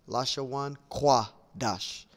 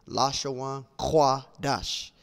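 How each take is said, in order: The two takes are said the same way.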